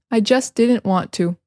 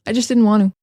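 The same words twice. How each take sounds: First: Said in the usual way. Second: Quick "just didn't" with no Ts; blended everyday "just didn't want to"; casual reduction. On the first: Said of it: "there's so many examples". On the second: Shown as a demonstration. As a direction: run it together, "want to" as "wan-oo". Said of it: "instead of just".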